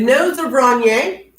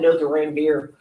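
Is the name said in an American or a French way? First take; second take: French; American. First: The name is said with French pronunciation. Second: The name is said with Texan English pronunciation. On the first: "it's French" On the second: "if you're from Texas"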